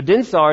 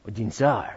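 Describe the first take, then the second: First: Said in the usual way. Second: "dinsar" low and soft in a tentative French accent; attempted French accent. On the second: Shown as a demonstration. Pastor unsure of his French, "dinsar" in an attempted French accent. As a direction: try "dinsar" as French, letting the final r fall away. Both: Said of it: "say it with a French accent".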